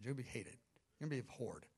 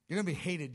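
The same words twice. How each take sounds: First: Much softer, lower, heavy; Father quietly warning the Son of hatred; hushed grave warning. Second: Said in the usual way. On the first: Acted. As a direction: let the warning sink low.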